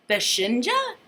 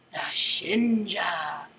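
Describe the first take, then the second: First: Said in the usual way. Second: Slow, hissing snake whisper. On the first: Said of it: "repeated as a plain question". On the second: Acted. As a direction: breathe the name like a snake. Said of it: "he whispers like a snake".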